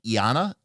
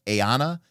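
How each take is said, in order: First: "Iana" said as ee-AH-nuh, a questioning rise at the end; tentative "Iana", ee-AH-nuh, rising; trying a pronunciation. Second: "Aeana" said as ay-AH-nuh, rising at the end; tentative "Aeana", ay-AH-nuh, rising; trying another pronunciation. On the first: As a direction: sound out "Iana" as ee-AH-nuh with an unsure lift. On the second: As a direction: sound out "Aeana" as ay-AH-nuh, like a question. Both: Shown as a demonstration. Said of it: "you give me your pronunciations in chat".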